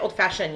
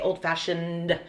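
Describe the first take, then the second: First: The word is slurred and not fully pronounced. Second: The word is pronounced clearly and fully. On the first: The speaker calls it wrong. "you can't say old-fashioned" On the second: The speaker calls it right. "You have to say old-fashioned. Like it has to be said clearly"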